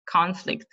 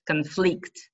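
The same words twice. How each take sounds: First: "Conflict" as the noun, CON-flict; first-syllable stress. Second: "conflict" as the verb, con-FLICT; last-syllable stress. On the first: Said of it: "on the first syllable". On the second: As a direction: lean on the end of "conflict". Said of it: "The stress is on the last". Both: Shown as a demonstration.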